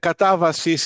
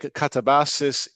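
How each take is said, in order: First: It is pronounced the Greek way. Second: It is pronounced the English way. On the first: "in Greek" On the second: "in English"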